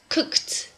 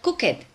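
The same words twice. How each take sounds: First: The ending is a short T sound. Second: The ending is an extra syllable, like 'id'. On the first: The speaker calls it right. "Ed sounds like a T" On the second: The speaker calls it wrong. "the ed is not cooked"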